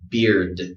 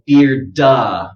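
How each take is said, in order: First: The final d stops without an added vowel. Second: The final d is followed by an added vowel. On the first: The speaker calls it right. "Just give it d d" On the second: The speaker calls it wrong. "Don't go beard-da"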